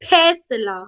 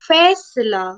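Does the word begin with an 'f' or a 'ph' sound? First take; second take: ph; f. First: The word begins with an aspirated ph sound. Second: The word begins with an f sound.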